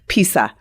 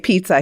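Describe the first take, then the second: First: It is said with a Spanish-influenced pronunciation. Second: It is said with a standard American pronunciation. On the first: The speaker calls it wrong. "he says pizza" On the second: The speaker calls it right. "he doesn't say pizza"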